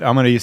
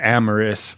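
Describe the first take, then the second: First: The name is said with a Spanish accent. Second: The name is said with an English accent. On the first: The speaker calls it right. "throw a little accent in there" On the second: The speaker calls it wrong. "with the not Spanish accent"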